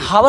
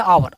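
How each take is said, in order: First: The word starts with an audible h sound. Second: The word starts directly with a vowel sound. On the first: The speaker calls it wrong. "हावर ना बोल के" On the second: The speaker calls it right. "आप क्या बोलोगे"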